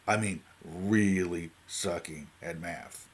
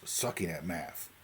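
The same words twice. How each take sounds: First: "really sucking at math" drawn out slowly, each word leaned on; stress on really. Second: Said in the usual way. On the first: Shown as a demonstration. To viewers about his maths, slow stressed "really sucking at math". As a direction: stretch "really sucking at math" to show how bad it was.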